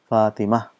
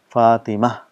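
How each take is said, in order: First: The name ends softly with an 'h' sound. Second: The same.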